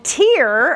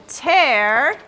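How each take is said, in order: First: "tear" with a long EE vowel, as in crying; "tear" pronounced like "teer"; tear rhyming with ear. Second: "tear" with an open EH vowel, as in ripping; "tear" pronounced like "tare"; tear rhyming with air. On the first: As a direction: say "tear" to rhyme with "here". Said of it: "So those are heteronyms". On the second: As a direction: say "tear" to rhyme with "bear". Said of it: "two ways to pronounce this word". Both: Shown as a demonstration.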